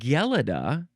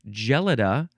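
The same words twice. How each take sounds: First: The word begins with a hard g sound. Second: The word begins with a soft j sound. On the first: "or G" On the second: "So J"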